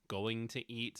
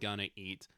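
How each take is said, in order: First: Every syllable of going to is said fully. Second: Going to is squeezed into gonna.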